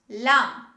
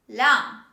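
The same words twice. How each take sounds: No difference in how they are said.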